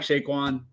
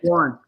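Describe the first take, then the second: First: The name begins with a plain S sound. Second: The name begins with an SH sound. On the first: The speaker calls it right. "I think I just said his name right for the first time" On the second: The speaker calls it wrong. "I always want to call him Shaquan"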